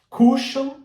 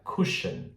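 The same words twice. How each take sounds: First: The vowel is a longer, stronger u sound. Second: The vowel is a short, subtle u sound. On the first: The speaker calls it wrong. "não é esse U mais forte" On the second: The speaker calls it right. "É um U mais sutil"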